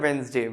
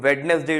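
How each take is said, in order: First: The middle d sound is silent. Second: The middle d sound is pronounced. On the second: "वेडनेसडे जो होता है"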